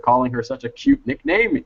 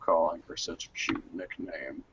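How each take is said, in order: First: It is read in the speaker's ordinary voice. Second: It is read in a put-on character voice.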